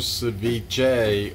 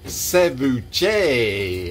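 First: The word is said without a French accent. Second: The word is said with a French accent.

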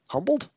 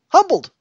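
First: The word is said at its quietest. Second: The word is said at its loudest.

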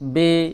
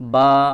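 First: The letter name ends in an 'e' vowel. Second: The letter name ends in an 'a' vowel. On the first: This is the Urdu way of naming the letter. The speaker calls it wrong. "এইভাবে উর্দুতে উচ্চারণ করা হয়" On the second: This is the Arabic way of naming the letter. The speaker calls it right. "এইভাবে উচ্চারণ করবেন"

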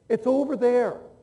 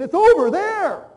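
First: It is said at a normal volume. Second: It is said louder still, very loudly.

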